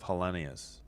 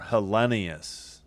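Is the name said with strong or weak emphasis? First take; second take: weak; strong. First: The name is said with weaker emphasis. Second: The name is said with stronger emphasis. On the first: The speaker calls it wrong. "instead of" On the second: The speaker calls it right. "I just got to emphasize it more"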